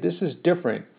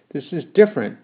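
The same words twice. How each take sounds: First: Pleading. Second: Protesting. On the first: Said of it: "I pleaded". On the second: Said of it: "I protested". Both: Acted.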